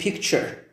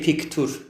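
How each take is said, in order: First: The middle consonant is a ch sound. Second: The middle consonant is a plain t sound. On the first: The speaker calls it right. "we say picture. Ch, like the same" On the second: The speaker calls it wrong. "We don't say picture"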